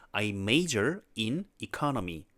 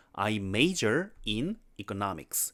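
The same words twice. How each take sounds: First: Very slow, economy 앞에 힘준 틀린 문장; 천천히 또박또박, economy를 잘못 강조해 읽기; wrong word stress. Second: Very slow, economics의 no에 강세 주기; 천천히 또박또박 바른 강세로; correct stress. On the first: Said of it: "이거는 경제예요". (틀린 강세로 천천히 또박또박) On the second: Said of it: "이렇게 하셔야 돼요". (바른 강세로 천천히 또박또박) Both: Shown as a demonstration.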